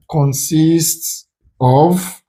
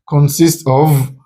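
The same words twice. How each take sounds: First: Very slow, stretched words; slow, spaced-out option reading; drawn-out reading. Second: Said in the usual way. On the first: Shown as a demonstration. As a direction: draw each word right out. Reads option slowly, then repeats it.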